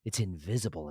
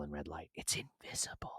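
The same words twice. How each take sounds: First: Said in the usual way. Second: Hushed, voiceless repeat; dramatic whisper. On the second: Real, not acted. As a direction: whisper it like a grim secret.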